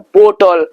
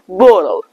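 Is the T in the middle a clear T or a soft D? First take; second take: clear T; soft D. First: The middle T is a clear, crisp T. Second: The middle T sounds like a soft American D.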